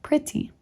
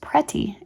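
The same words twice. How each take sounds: First: The first vowel sounds like 'ih'. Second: The first vowel sounds like 'eh'. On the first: The speaker calls it right. "in place of pretty" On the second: The speaker calls it wrong. "frequently mispronounced pretty"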